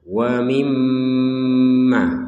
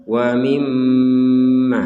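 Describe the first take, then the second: Both takes have the same delivery.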